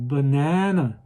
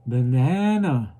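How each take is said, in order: The two takes are said the same way.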